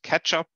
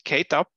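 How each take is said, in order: First: It sounds like the word 'ketchup'. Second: It sounds like 'Kate' followed by 'up'. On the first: This is how other people pronounce it. "others pronounce it ketchup" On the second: This is the speaker's own pronunciation. "I pronounce it KateUp"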